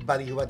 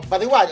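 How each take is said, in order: First: The stress falls before the last syllable. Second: The stress falls on the last syllable. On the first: The speaker calls it wrong. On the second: The speaker calls it right. "o bilis"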